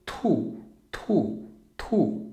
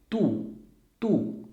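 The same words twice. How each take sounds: First: "tu" with a strong burst of air after the t; aspirated tu. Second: "tu" with no breath after the t; unaspirated tu. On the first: Teacher showing the aspirated "tu" to students. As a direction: push air out on the t of "tu". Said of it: "com T de tatu". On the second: Teacher showing the unaspirated "tu" to students. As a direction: say "tu" tight with no air. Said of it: "nós temos aqui tu". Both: Shown as a demonstration.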